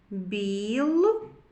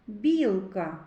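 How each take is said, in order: First: "Білка" split into "біл" and "ка"; read by syllables. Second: Said in the usual way. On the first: Shown as a demonstration. Teacher reads with children, "Білка" syllable by syllable. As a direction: sound out "Білка" as two slow, separate syllables. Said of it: "Прочитаємо". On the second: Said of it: "Звуковий аналіз слова".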